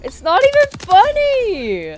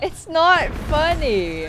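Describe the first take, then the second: First: High, loud, slow laughing protest. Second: Loud, slow laughing protest. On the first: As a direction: protest while cracking up. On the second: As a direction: say it while giggling. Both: Real, not acted. Teammate cracking up while protesting.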